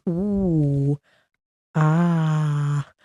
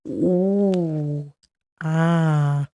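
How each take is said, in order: Both takes have the same delivery.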